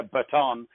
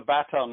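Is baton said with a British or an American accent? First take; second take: American; British. First: Baton is said with an American accent. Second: Baton is said with a British accent.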